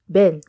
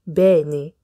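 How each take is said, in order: First: It is said very fast, like one syllable. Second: It is said at a normal, careful pace.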